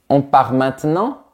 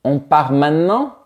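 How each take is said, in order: First: 'Maintenant' drops one inner vowel but keeps its syllables. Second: 'Maintenant' is squeezed into a much shorter form. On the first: "retirer le E à l'intérieur de mots un peu plus longs" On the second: "On peut même entendre"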